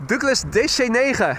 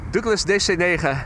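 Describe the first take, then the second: First: Douglas D C negen in thick Dutch, hard guttural g; heavy Dutch accent. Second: Just say Douglas D C negen the Dutch way; Dutch pronunciation. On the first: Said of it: "try saying D C nine in a heavy Dutch accent". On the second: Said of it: "is what we would say in Dutch". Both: Shown as a demonstration.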